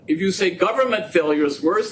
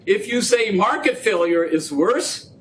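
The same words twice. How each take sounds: First: Government stressed with a rise. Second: Market stressed with a rise. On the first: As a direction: lean on the word government. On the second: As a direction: lean on the word market. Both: Shown as a demonstration.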